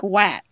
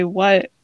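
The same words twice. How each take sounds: First: "wat" with a flat a as in cat; mispronounced "what". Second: "what" with a short uh vowel; American "what". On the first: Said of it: "Nobody says "what" like "wat". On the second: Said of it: "with, like, a U sound". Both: Shown as a demonstration.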